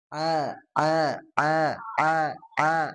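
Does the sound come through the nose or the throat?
throat. The vowel sound comes from the throat. The speaker calls it right. "Nah, gitu"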